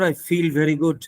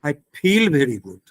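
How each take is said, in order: First: The f and v use lower lip and teeth. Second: The f and v are made with both lips. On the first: This is how British speakers say it. "we do not say" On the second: This is how people in eastern India say it. "We say, ... pronounced with both the lips"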